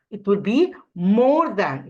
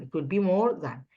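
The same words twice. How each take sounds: First: "It will be more than" said slowly and louder, each word clear; slow model answer. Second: Said in the usual way. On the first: Shown as a demonstration. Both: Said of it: "let's answer this".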